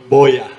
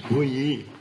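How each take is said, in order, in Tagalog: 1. Ang salita ay sinabi sa paraang Tagalog. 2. Ang salita ay sinabi sa paraang American. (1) "If you're Tagalog, bu, bu, boya" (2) "If it's American, it's buyi"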